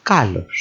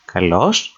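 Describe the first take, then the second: First: Kalos as KA-los, falling at the end; KA-los for kalos, dropping ending; stress on first syllable. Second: Kalos as ka-LOS, rising at the end; ka-LOS for kalos, lifted ending; stress on second syllable. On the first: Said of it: "They mean different things". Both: Shown as a demonstration.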